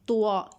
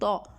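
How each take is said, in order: First: It is said as two syllables, ta-wa. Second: It is said as one heavy syllable, to. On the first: The speaker calls it wrong. "बहुत सारे लोग मिस्टेक कर देते हैं, इसको पढ़ देते हैं तुआ, यानी कि तवा" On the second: The speaker calls it right. "ये तवा नहीं है, इसको पढ़ेंगे तो"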